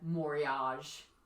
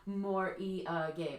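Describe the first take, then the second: First: It is said with an American pronunciation. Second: It is said with a Japanese pronunciation. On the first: "in America" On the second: "morige in Japanese"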